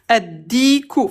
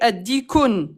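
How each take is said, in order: First: The word ends on a plain vowel. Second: The word ends with an added n sound. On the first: The rooster. The speaker calls it right. "le coq addiku" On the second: It wrongly adds an indefinite marker to the definite word. The speaker calls it wrong. "attention t'as fait addikun t'as dit le un coq"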